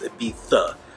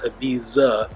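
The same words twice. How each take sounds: First: The middle consonant is a th sound. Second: The middle consonant is not a th sound. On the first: The speaker calls it right. "we pronounce their sound with a T H" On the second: The speaker calls it wrong. "It's not Ibiza"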